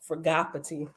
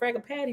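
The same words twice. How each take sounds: First: The name is pronounced in a fancier, richer way. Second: The name is pronounced in a plainer, simpler way. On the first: Someone else suggested this pronunciation. "It sounds uh bougie" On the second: This is the speaker's own habitual pronunciation. "I'm just gonna go with Fragapati"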